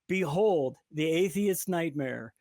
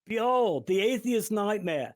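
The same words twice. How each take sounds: First: It is said in the speaker's ordinary accent. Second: It is said in a put-on Australian accent.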